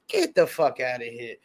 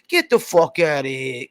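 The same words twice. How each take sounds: First: It is said in his normal voice. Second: It is said in a put-on Italian voice.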